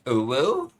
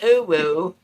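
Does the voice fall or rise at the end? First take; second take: rise; fall. First: The voice rises at the end like a question. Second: The voice does not rise at the end.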